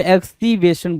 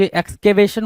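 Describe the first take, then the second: First: एक्सकीवेशन with "ee" in the middle; mimicked mispronunciation. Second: एक्सकेवेशन with a clear "kay" in the middle; correct pronunciation. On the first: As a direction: say एक्सकीवेशन as ek-see-VAY-shun. (गलत उच्चारण की नकल, बीच में "ई" की आवाज़) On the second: Shown as a demonstration. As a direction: say एक्सकेवेशन as eks-ka-VAY-shun. (सही उच्चारण, एक्सकेवेशन में "के" की आवाज़) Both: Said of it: "वहाँ पे एक्सकीवेशन बोल रहा है".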